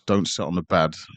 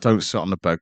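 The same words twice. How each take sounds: First: It is said in a put-on Scottish accent. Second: It is said in the speaker's own accent.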